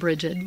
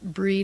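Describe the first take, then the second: First: The name is said with two syllables. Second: The name is said with one syllable. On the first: This is the common everyday form. "which most people do" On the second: This is the original native form. "the actual pronunciation"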